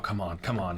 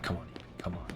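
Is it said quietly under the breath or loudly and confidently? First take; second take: confident; under breath. First: It is said high and out loud with confidence. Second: It is muttered low and quietly under the breath. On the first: "instead of saying it high. And with confidence" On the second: "I'm saying under my breath"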